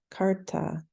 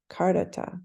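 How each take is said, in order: First: "Karta" with the middle syllable dropped; sloppy clipped Karta. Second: "Kardata" with all three syllables; correct Kardata. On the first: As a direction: show the lazy habit, "Karta" said quickly. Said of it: "a bad habit for me where I just say Karta". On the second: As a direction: restore the dropped middle "da" in "Kardata". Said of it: "It's really Kardata". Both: Shown as a demonstration.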